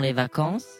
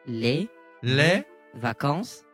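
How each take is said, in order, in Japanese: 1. このフレーズは速く、一続きに言われます。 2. このフレーズはゆっくり、一語ずつ言われます。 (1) "テンポ上げてお願いします" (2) "ゆっくりお願いします"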